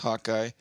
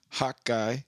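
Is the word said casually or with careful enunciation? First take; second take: casually; carefully. First: The word is said casually, without careful enunciation. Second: The word is said with careful, clear enunciation.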